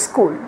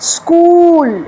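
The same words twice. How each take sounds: First: The vowel in the word is short. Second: The vowel in the word is long. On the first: The speaker calls it wrong. "এটাকে আমরা ভুলবশত বলি কি স্কুল।" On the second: The speaker calls it right. "সেটা হচ্ছে স্কুল, long হবে।"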